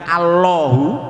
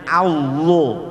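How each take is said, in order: First: The L sound turns into a W-like glide. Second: The L is a real L, tongue on gum. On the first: The speaker calls it wrong. "bukan Allahu" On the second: The speaker calls it right. "tapi jadinya Allah"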